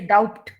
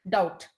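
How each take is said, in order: First: The b sound is pronounced before the t. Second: The b sound is silent before the t. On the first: The speaker calls it wrong. "You don't say doubt" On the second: The speaker calls it right. "silent B"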